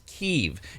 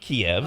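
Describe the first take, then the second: First: It uses the newer Ukrainian pronunciation. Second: It uses the older Russian-era pronunciation. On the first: It respects Ukraine's own naming. The speaker calls it right. "The correct way to pronounce it is Kyiv" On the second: It follows the name used under Russian rule. The speaker calls it wrong. "It's actually an insult to the Ukrainians to say Kiev"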